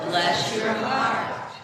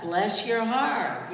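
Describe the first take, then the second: First: Louder and slower, leading the crowd; louder blessing. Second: Slow blessing. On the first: Pastor leading the congregation in a louder, slower blessing. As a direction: call it out so they join in. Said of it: "Say it, let's say it". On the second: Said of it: "I want you to say what?". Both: Shown as a demonstration.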